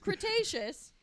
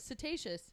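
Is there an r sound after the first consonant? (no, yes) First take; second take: yes; no. First: The word starts with a cr sound. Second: The word starts without an r sound. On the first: The speaker calls it right. "It's Cretaceous" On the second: The speaker calls it wrong. "she kept not saying Cretaceous right"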